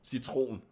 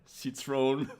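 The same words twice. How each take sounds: First: It is said with the standard Danish pronunciation. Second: It sounds like the French word Citroën. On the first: "the normal word in Danish would just be citron" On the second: "the way she says it is like citron"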